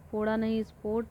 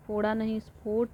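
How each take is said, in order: Both takes have the same delivery.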